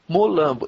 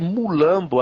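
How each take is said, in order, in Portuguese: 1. A primeira vogal soa como 'o'. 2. A primeira vogal soa como 'u'. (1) "o certo é falar Molambo" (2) "não foi a forma de escutar ... Que foi errônea"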